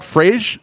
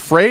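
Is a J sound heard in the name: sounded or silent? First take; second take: sounded; silent. First: The name is said with a J sound. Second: The name is said with no J sound. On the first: The speaker calls it wrong. "It's not Frage" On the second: The speaker calls it right. "it's Frey. The J is silent"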